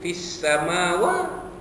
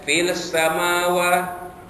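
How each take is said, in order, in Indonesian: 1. L menyatu menjadi bunyi S yang digandakan. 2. L diucapkan terpisah sebelum S.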